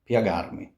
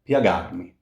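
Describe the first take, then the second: First: The i glides into the a in one syllable. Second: The same.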